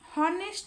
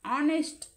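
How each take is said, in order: First: The word starts with an audible h sound. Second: The word starts directly with a vowel sound. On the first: The speaker calls it wrong. "हॉनेस्ट हॉनेस्ट असं नाही वाचायचं" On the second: The speaker calls it right. "एच जे आहे या ठिकाणी silent आहे"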